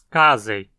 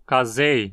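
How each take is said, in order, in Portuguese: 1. O acento cai na primeira sílaba. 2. O acento cai numa sílaba posterior. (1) "a penúltima sílaba, z, não tem requisitos para levar o acento também. Então dizemos casei" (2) "que muitos pronunciavam como casei nos comerciais"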